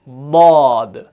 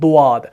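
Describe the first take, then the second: First: The tongue's side edge touches the upper molars. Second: The lips round, adding a w-like sound. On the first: The speaker calls it right. "जुबान के बगली किनारे को ... दाढ़ों की जड़ ... उसके साथ लगाना है" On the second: The speaker calls it wrong. "वो वो जैसी आवाज नहीं निकालनी है, ये होंठों को ऐसे"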